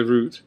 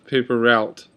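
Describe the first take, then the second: First: "route" with an OO vowel, like "root"; OO pronunciation. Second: "route" in "paper route" rhyming with out; OW pronunciation. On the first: Vlogger on highway names, OO pronunciation. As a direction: say "route" to rhyme with boot. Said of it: "I pronounce it differently depending". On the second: Vlogger on a paper boy's round, OW pronunciation. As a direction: say "route" as "rowt". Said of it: "I'll say". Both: Shown as a demonstration.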